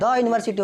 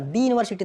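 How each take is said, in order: First: 'The' is said with a short 'thuh' vowel. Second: 'The' is said with a long 'thee' vowel. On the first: The speaker calls it right. "हाँ द university होगा" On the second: The speaker calls it wrong. "दी university नहीं होगा"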